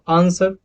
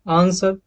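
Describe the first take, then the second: No difference in how they are said.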